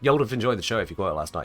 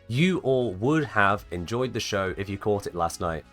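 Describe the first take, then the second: First: The opening words are squeezed into one contracted word. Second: The opening words are said fully and separately.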